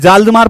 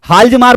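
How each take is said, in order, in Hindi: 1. नाम की शुरुआत J ध्वनि से होती है। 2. नाम की शुरुआत H ध्वनि से होती है।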